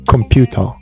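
It is said in a British accent.

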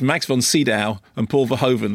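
The names are pronounced with English sounds. This is how most other people say them. "as far as anyone else is concerned"

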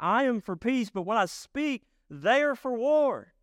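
It is said with exclamatory frustration.

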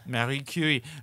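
The name is said in a French accent.

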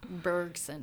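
The name is said with an English pronunciation. "We need to get my good Canadian accent"

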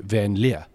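The surname is pronounced with English sounds. This is how the name's owner says it. "I'm very English, albeit South African, and I say van der Leer"

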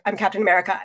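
It is said casually, like an obvious aside.

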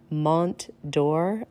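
It is said with an American pronunciation.

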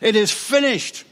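It is said as a loud, triumphant shout.

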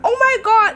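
It is said with delighted, excited surprise. The surprise is a pleasant one. "it wasn't kind of good surprise, not like that oh my god"

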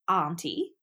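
It is said the Australian or British way.

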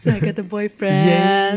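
It is said in a bright, joyful tone.

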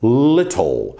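The middle t is a crisp t sound. "no britânico é little"

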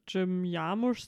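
The name is said with German pronunciation.

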